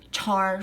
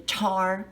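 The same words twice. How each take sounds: First: The vowel is a flat 'ah' sound. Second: The vowel is a flat 'ah' sound.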